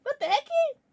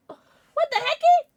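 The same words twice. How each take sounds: First: High squeaky repeat; surprised squeak. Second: High, loud, slow squeak of disbelief; shocked squeal. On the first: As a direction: squeak it again lighter. Repeats shocked reaction. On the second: Shocked at donation. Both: Real, not acted.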